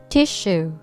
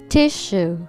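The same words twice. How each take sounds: Both takes have the same delivery.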